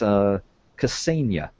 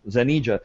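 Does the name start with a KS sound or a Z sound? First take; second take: KS sound; Z sound. First: The name begins with a KS sound. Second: The name begins with a Z sound. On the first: The speaker calls it right. "I confirmed it with him that it's Ksenia" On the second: The speaker calls it wrong. "And the X's are sound like a Z, so Zanija"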